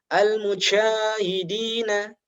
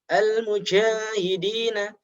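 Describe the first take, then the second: The two takes are said the same way.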